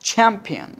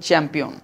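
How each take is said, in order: First: The first sound has a strong puff of air. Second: The first sound has no puff of air. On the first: The speaker calls it right. "উচ্চারণটা কি হবে একটুখানি খেয়াল করো চ্যাম্পিয়ন" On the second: The speaker calls it wrong. "পরটা আমরা বলি চ্যাম্পিয়ন"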